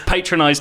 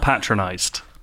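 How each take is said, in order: First: The first syllable sounds like the word patron. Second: The first syllable does not sound like patron. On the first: The speaker calls it right. "It's patronized, ... as in, there is a patron involved" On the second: The speaker calls it wrong. "not patronized"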